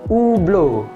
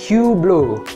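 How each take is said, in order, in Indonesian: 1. Diucapkan dengan pengucapan ala Eropa. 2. Diucapkan dengan pengucapan ala Amerika. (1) "Orang-orang Eropa atau aslinya brand ini tuh sebenarnya dibaca Hublot" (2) "umumnya orang-orang Amerika itu nyebut brand ini sebagai Hublot"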